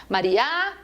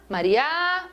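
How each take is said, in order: The two takes are said the same way.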